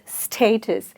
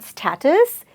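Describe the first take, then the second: First: The first syllable sounds like 'stay'. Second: The first syllable does not sound like 'stay'. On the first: The speaker calls it right. "say stay, and then say tus" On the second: The speaker calls it wrong. "it's not status"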